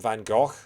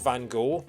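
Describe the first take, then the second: First: The name is said in a British way. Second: The name is said in an American way. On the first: "British people call him Van Gogh" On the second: "Americans call him Van Gogh"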